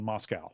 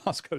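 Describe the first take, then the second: First: The second syllable rhymes with cow. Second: The second syllable rhymes with go. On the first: This sounds like the Russian city. The speaker calls it wrong. "they don't dig on Moscow" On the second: This is how the local town says it. The speaker calls it right. "it has to be Moscow"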